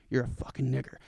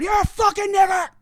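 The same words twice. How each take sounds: First: Low, soft, private mutter; demonstrating a discreet low-voiced insult; under the breath. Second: High, loud shouted insult; demonstrating a loud, high-pitched outburst; public outburst. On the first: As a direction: keep it down so nobody else hears. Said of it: "'Cause if you're gonna say it in public, you should just be like". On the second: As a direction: yell it out for everyone to hear. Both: Shown as a demonstration.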